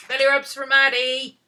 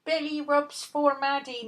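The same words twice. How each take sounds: First: Loud, high cheer to the dog; excited coo. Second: Slower, high drawn-out croon; sing-song coo. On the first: Owner cheering the dog on, loud and high. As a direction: whoop it to the dog. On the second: Owner crooning to the dog, slow and high. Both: Real, not acted.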